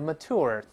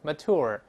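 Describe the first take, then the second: First: It ends with an r-colored vowel. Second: The same.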